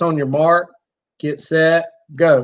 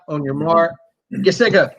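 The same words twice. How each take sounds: First: The words are spaced at an even, steady pace. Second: The words are rushed together quickly. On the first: The speaker calls it right. "remember it's on your mark, get set, go" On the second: The speaker calls it wrong. "It's not ... You can't rush it that much"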